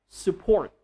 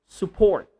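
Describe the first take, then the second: The two takes are said the same way.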